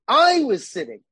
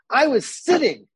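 First: The stress is on "I". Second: The stress is on "sitting".

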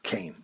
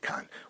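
First: The vowel glides like 'ay' in 'rain'. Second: The vowel is a plain 'ah' sound. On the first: This is the formally correct form of the noun. "Technically, the word should be pronounced kain" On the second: This is the everyday spoken form. "the vernacular usage is to say kan"

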